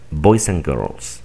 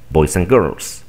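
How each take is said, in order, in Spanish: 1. La palabra 'and' se reduce a un sonido 'n'. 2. La palabra 'and' se reduce a un sonido 'n'.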